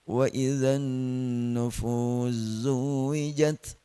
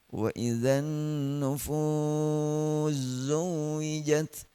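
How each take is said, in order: First: The long vowel is held for two counts. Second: The long vowel is held for four counts.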